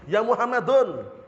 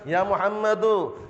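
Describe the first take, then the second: First: The name ends with an added n sound. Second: The name ends on a vowel without n. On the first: The speaker calls it wrong. "enggak boleh tanwin" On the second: The speaker calls it right. "tidak boleh tanwin lagi"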